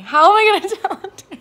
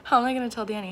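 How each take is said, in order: First: Loud, high, fast with a laugh; excited laughing. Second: Said in the usual way. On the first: Real, not acted. Wondering how to tell Danny, excited and laughing. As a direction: burst out giddy and rushed. Excited about telling partner.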